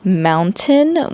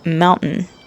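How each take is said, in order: First: The T sound is clearly pronounced. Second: The T sound is dropped in quick speech.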